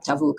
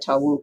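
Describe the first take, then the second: First: The middle consonant sounds like a v. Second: The middle consonant sounds like a w. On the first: The speaker calls it right. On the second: The speaker calls it wrong.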